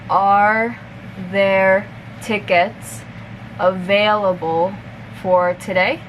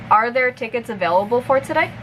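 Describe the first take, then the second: First: The sentence is spoken at a moderate pace. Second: The sentence is spoken at natural conversational speed. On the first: "a little bit faster" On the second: "one more time at normal speed"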